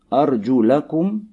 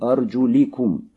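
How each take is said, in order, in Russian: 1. Гласный перед -kum это a. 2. Гласный перед -kum это i. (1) "мансуб в винительном падеже" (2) "мджрур в родительном падеже"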